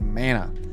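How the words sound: The word is said with an American pronunciation. "me being American, I should be saying mana"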